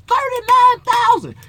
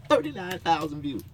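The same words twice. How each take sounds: First: "Thirty-nine thousand" cried out high, slow and loud; mock disbelief. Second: Said in the usual way. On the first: Real, not acted. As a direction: exclaim the number in outrage. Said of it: "I got thirty-nine thousand views". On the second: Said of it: "Guess how much money I done made off".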